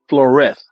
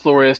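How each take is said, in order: First: The name ends with a th sound. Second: The name ends with a plain s sound. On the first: It follows how the player's own people say it. "like like a th" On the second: It follows the spelling. "I would pronounce it Flores too. That's how it's spelled"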